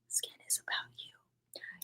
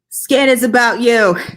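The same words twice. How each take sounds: First: It is spoken very quietly, almost a whisper. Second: It is spoken loudly, well above a whisper. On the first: "It was a little low" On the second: "Too loud"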